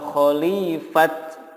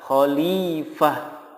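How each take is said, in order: First: The word ends with a bare t sound. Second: The word ends with a soft h sound. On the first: The speaker calls it wrong. "atau khalifat, nggak boleh" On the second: The speaker calls it right. "tetapi yang benar adalah khalifah"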